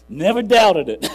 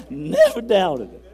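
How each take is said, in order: First: Laughing. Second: Laughing slower. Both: Real, not acted.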